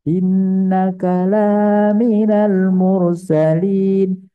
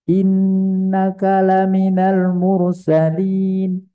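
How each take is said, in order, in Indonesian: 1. Vokal pada 'la' dipanjangkan. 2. Vokal pada 'la' diucapkan pendek. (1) "Sekarang kita panjangkan" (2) "La itu kalau pendek, artinya benar-benar"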